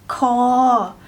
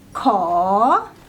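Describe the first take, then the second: First: The tone stays level. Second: The tone rises.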